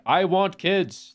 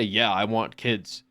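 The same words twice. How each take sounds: First: High, slow, gushing want; hammed-up eager declaration; eager overdone. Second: Calm slow yeah; matter-of-fact reply; plain, slow answer. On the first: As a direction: stretch it out like you're dying for kids. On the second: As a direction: say it simply and slowly. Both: Shown as a demonstration. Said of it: "not going out there being like".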